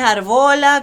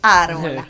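First: The stress is on the middle syllable. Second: The stress is on the first syllable. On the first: The speaker calls it wrong. "No es arbola, como me dicen muchas veces" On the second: The speaker calls it right. "es árbola. Árbola es como árbol pero con A"

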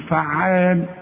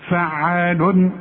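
First: The word ends without any n sound. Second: The word ends with an audible n sound. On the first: "الوقف الحقيقي تقول فعال" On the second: "عشان اظهر لك فين التنوين اقول لك فعال"

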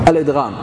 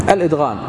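Both takes have the same delivery.

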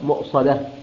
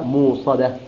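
First: A glottal stop follows the first vowel. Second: A long oo vowel replaces the glottal stop.

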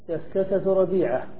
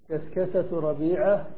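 Both takes have the same delivery.

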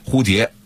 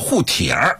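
First: The first syllable is said like 蝴, standard style. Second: The first syllable is said like 护, Beijing style. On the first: "普通话的正确的标准发音蝴蝶" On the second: "蝴蝶一定说护蝶"

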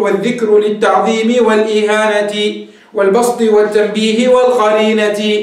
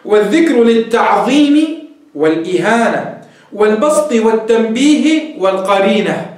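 First: The final ta is said with an i vowel. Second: The final ta is said without a vowel.

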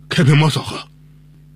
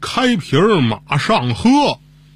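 First: The phrase is said quickly, slurred together. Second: The phrase is said slowly, each word clear.

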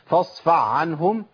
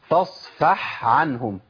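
First: The h sound merges into the following ain sound. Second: The h sound stays distinct before the next word. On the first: The speaker calls it wrong. "انا كده ابدلت الحاء بعين على طول، اضغمت" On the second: The speaker calls it right. "اسمع كده، فاصفح عنهم، ده الصح"

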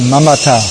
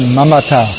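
First: The name is said in Sanskrit pronunciation. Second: The same.

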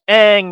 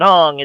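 First: The vowel sounds like the vowel in 'bang'. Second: The vowel sounds like the vowel in 'father'. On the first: The speaker calls it right. "it's Aang" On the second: The speaker calls it wrong. "not Aang"

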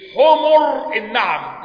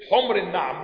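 First: The M in the first word takes a u vowel. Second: The M in the first word has no vowel. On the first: It means donkeys. The speaker calls it wrong. "بعض إخواننا ينطقها ويقول إيه؟ ... لا، ... حمر بضم الميم يبقى جمع ايه؟ حمار" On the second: It means red camels. The speaker calls it right. "لكن حمر هذه بتتكلم عن ايه؟ جمع احمر"

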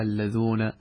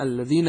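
First: The second syllable has an oo vowel. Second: The second syllable has an ee vowel. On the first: "بعض العرب يجعلها بالواو في حالة الرفع" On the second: "وهذه لغة القرآن"

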